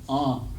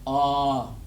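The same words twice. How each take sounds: First: The vowel is said through the nose. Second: The vowel is drawn out longer. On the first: "you gotta say it through your nose" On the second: "when there's two of them, you draw out the sound longer"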